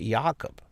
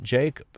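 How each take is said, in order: First: The name starts with a Y sound. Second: The name starts with a J sound. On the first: The speaker calls it right. "you pronounce it Jakob" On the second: The speaker calls it wrong. "You do not pronounce it Jacob"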